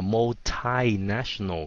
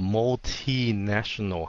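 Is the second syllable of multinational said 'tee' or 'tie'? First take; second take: tie; tee. First: The second syllable is said like 'tie'. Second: The second syllable is said like 'tee'. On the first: "Hai nữa là multinational ... Thai" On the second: "một là multinational ... T"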